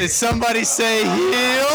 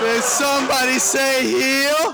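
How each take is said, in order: First: Shouted wrestling heel entrance. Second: Slower, higher heel taunt; slow drawn-out heel taunt. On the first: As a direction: bellow it like a ring entrance. Heel bursts in on cue. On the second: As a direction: stretch it out, taunting the crowd. Heel repeats his entrance line. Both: Acted.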